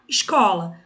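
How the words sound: The s sounds like a hushing sh. "aqui o S tem o som de X"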